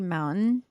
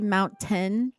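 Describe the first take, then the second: First: The middle T is dropped or swallowed. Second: The middle T is clearly pronounced. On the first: This is how the speaker's own dialect says it. "and I say mountain" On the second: This is how the more posh local dialect says it. "they pronounce their T's. So like they say mountain"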